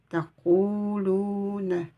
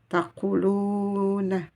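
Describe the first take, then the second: No difference in how they are said.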